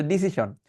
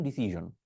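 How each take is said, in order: First: 'ডিসিশন' with a sh sound; Bengali-habit pronunciation. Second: 'ডিসিশন' with a voiced zh; actual English sound. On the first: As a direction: say 'ডিসিশন' with sh, not zh. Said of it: "সারা জীবন এটাই বাংলা বানিয়ে দিছেন". ('ডিসিশন' Bangla শ দিয়ে) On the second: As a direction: say 'ডিসিশন' as disizhon. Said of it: "এইটা আসলে সাউন্ডগুলো কেটে একটু বলে দিই". ('ডিসিশন' ইংরেজি zh দিয়ে) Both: Shown as a demonstration.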